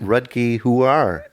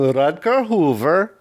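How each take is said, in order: First: The name is said in a plain accent. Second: The name is said in a put-on foreign accent.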